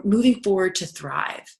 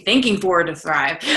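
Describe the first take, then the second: First: Said in the usual way. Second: Thinking set apart as the fixed word; corrected title. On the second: Shown as a demonstration. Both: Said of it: "Or excuse me".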